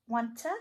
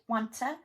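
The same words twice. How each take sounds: First: The t sound is kept, words joined. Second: The same.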